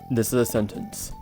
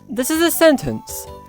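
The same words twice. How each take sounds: First: The voice sounds masculine, dropping at the end. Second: The voice sounds fairly feminine, dipping at the end. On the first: "observe how I say this sentence in a masculine and feminine voice" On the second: "The second one is pretty femme, but then there's a bit of a dip at the end"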